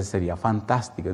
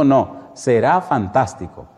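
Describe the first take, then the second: First: Said in the usual way. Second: SERÁ said slowly and firmly; firm correction on SERÁ. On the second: Retold or imitated. Pastor corrects the husband's doubt, firm stress on "será".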